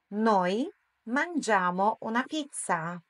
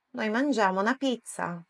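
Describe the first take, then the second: First: Slow, word-by-word demonstration; slow model sentence. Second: Said in the usual way. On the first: Shown as a demonstration. Teacher models Italian for learners to repeat, slowly. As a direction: say it slowly with clear gaps. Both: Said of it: "Tocca a te ad alta voce".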